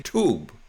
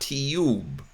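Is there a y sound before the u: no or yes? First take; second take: No; Yes. First: The u is said with no y sound. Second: A y sound comes before the u. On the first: This is how Americans say it. The speaker calls it right. "we say tube as spelled" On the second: This is not how Americans say it. The speaker calls it wrong. "not tube"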